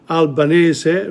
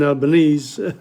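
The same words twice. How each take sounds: First: "Albanese" said syllable by syllable, ending in a sounded "-eh-zeh"; Italian pronunciation. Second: "Albanese" as al-buh-NEEZ, with a silent final e; anglicised pronunciation. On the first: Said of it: "pronunciation is syllabic in Italian". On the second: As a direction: say "Albanese" the English way, ending in "-neez". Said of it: "will say Albanese rather than". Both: Shown as a demonstration.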